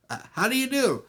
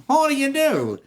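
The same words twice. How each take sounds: First: High, timid little man's hello; meek greeting. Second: High, loud jealous husband's hello; pointed greeting. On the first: Little man meeting the jealous husband, meek. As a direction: greet him in a small raised voice. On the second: Jealous husband greeting the supposed island man, pointed. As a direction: throw the greeting back hard and high. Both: Acted.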